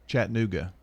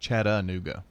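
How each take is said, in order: First: The vowel after the first syllable is dropped. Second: The vowel after the first syllable is pronounced. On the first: The speaker calls it right. "You leave the A out" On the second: The speaker calls it wrong. "not Chattanooga"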